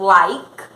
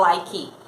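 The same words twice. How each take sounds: First: The word ends on the K sound. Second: The word ends with an extra vowel sound. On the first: The speaker calls it right. "a gente vai acabar o som naquela consoante" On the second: The speaker calls it wrong. "você não fala"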